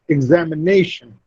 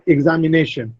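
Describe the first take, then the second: First: The main stress is on the fourth syllable. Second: The main stress is not on the fourth syllable. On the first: The speaker calls it right. "Ne receives the primary stress and za receives the secondary stress" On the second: The speaker calls it wrong. "It's not examination"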